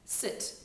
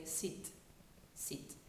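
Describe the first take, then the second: First: Said in the usual way. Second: "sit" with a long I, like "seet"; French-accented "sit", vowel tight and long. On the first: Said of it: "we would make a short one". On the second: Shown as a demonstration. Coach showing what French speakers would say, "sit" as "seet". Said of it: "is usually a long I".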